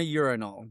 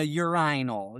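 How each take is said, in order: First: Urinal said YUR-in-al, stress on the first syllable; American urinal. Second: Urinal said yur-EYE-nal, long I stressed; British urinal. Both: Shown as a demonstration. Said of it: "emphasis on the wrong syllable".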